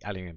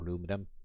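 First: It is said the British way, with five syllables. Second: It is said the American way, with four syllables.

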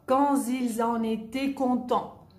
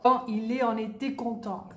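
First: The s of ils links as z to en. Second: The s of ils is not linked to en.

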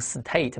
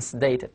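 First: The t is said as a plain t sound. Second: The t is said like a d sound. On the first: The speaker calls it wrong. "没这么读" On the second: The speaker calls it right. "特读成了的这个音"

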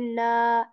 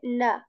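First: The final vowel is stretched long. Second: The final vowel is kept short. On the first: The speaker calls it wrong. "I will not say na" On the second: The speaker calls it right. "I will say na"

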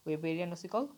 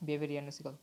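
First: The first word begins with a 'w' sound. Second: The first word begins with a 'b' sound. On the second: "Germany ভাষায় ডাব্লিউকে ব উচ্চারণ করা হয়"

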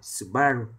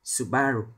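Both takes have the same delivery.

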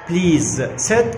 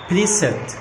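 First: The first word ends with a z sound. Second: The first word ends with an s sound. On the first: "please sit اصبحت" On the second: "اصبحت please sit"

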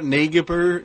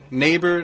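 First: The gh is sounded, every letter pronounced. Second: The gh is silent, modern pronunciation. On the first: This is how the word was said in Old English. "every word that seems misspelled is actually used to be pronounced the way it's spelled" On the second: This is how the word is said today. "Like neighbor"

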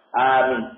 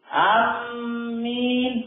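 First: The first vowel is long; the m is single. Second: The m is doubled and held longer. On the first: The speaker calls it right. "yang pertama dibaca panjang, minnya diringankan" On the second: The speaker calls it wrong. "kalau dibaca mim tasdid, amin keliru"

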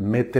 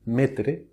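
First: It is said with a French pronunciation. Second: It is said with a Spanish pronunciation.

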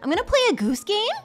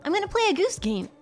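First: The pitch rises at the end. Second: The pitch falls at the end. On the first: The speaker is not finished; don't interrupt. "it goes up and it sounds like a question. You do not interrupt" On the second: The speaker is finished; it's your turn. "when you hear it go down"

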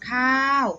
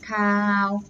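First: The syllable carries the mai tho tone. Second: The syllable carries the mai ek tone. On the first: "ไม่โท" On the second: "ไม่เอก"

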